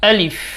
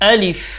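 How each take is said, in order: Both takes have the same delivery.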